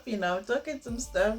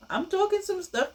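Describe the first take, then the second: First: Said in the usual way. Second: Pitched way up, teasing pride; high playful boast; playful brag. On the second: Real, not acted. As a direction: show off your point with a grin in the voice. Boasting about her own advice.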